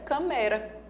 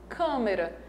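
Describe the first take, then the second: First: The stress is on the middle syllable. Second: The stress is on the first syllable. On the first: The speaker calls it wrong. "Se a sílaba mais forte fosse a penúltima" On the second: The speaker calls it right. "a sílaba mais forte é a primeira"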